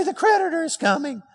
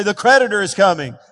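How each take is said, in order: First: Squeaky high congregation echo. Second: Normal pitch, a bit louder. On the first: Real, not acted. Congregation echoing the preacher in a high voice. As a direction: repeat it up high. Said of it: "You don't have to say it in a high voice". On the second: Shown as a demonstration. Preacher showing the congregation how to say it out loud. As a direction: say it out loud like you mean it. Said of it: "say it out loud".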